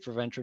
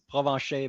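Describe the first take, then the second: First: The name is pronounced with English sounds. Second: The name is pronounced with French sounds. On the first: This is an acceptable translated pronunciation. "but you can say Provencher, no problem" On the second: This is the name's original pronunciation. "the real real pronunciation is Provencher"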